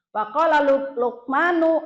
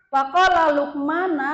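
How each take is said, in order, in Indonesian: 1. Nama itu diakhiri dengan vokal 'oo'. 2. Nama itu diakhiri dengan vokal 'ah'. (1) "di situ tertulis Luqmanu" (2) "Teteh Luqmana tadi"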